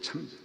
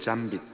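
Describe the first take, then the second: First: The first consonant has a strong puff of air. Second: The first consonant is plain, without a puff. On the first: The speaker calls it right. "치읓이 엄청 큽니다" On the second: The speaker calls it wrong. "잘못하면 잠빗이 돼"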